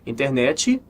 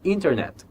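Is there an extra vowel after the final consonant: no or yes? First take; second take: yes; no. First: It ends with an added ee vowel sound. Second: It ends cleanly on the final t sound. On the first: The speaker calls it wrong. "Internet não existe" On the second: The speaker calls it right. "existe internet"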